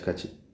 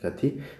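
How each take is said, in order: First: The second syllable starts with a ch sound. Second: The second syllable starts with a t sound. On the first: "속도부터가 다르다는 걸 알 수 있어요" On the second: "가티가 가치로 바뀌었는데"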